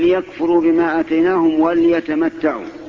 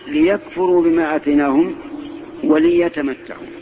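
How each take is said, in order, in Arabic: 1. صوت اللام لا تتبعه حركة. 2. صوت اللام تتبعه كسرة. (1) "وهذا لحن يخل بالمعنى" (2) "بل قل"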